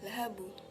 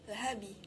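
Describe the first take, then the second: First: The final b bounces toward a u vowel. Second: The final b bounces toward an i vowel. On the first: "atau lahabu" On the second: "atau lahabi"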